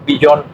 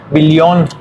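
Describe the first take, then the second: First: Said in the usual way. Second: "billón" said bil-lion, with a clear L; German "billón", double L as L; German pronunciation. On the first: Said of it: "que sería billón". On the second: Shown as a demonstration. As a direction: model "billón" the German way, L not Y. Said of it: "se pronuncia en alemán".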